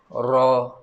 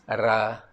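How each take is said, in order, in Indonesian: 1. Vokalnya bulat, bunyinya seperti 'o'. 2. Vokalnya terbuka, bunyinya seperti 'a'. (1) "bila berbaris atas, dia akan guna vokal O" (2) "jangan baca Ra"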